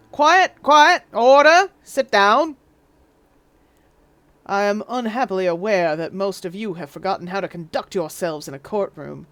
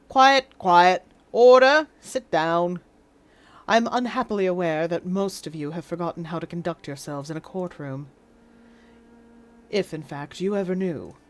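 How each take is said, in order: First: Booming Southern judge; Southern judge accent. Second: Received pronunciation judge voice; stern British judge, RP accent. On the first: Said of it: "wrong judge accent". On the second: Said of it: "Let's find received pronunciation". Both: Acted.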